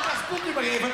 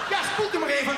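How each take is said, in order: First: Dentist shouting. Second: Dentist voice, higher. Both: Acted. Dentist telling patient to rinse.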